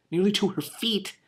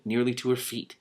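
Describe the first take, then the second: First: Much higher, rising on nearly; surprised repeat. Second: Said in the usual way. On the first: Real, not acted. Reader rereading the hair line, amazed. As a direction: echo the words in disbelief.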